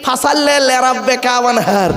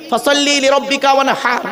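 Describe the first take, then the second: First: Slow ফাসাল্লে with an e ending, imitating the sloppy way; mock the careless reading ফাসাল্লে লিরাব্বিকা ওয়ানহার; imitating a wrong recitation; common mispronunciation. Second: ফাসাল্লি লিরাব্বিকা ওয়ানহার with a clear throaty ha; correct recitation. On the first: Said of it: "আর আমরা উচ্চারণ করি কি". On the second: Shown as a demonstration. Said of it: "এ গলার ভেতর থেকে হে এটা উচ্চারণ করবেন".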